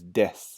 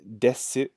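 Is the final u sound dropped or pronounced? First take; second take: dropped; pronounced. First: The final u vowel is dropped. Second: The final u vowel is pronounced. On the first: "we pronounce this one as des" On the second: "you'll see in the hiragana here, it's desu"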